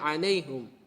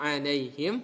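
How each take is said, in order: First: The vowel after the h is u. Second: The vowel after the h is i. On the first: "menjadi alaihum" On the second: "Yang sebelumnya alaihim"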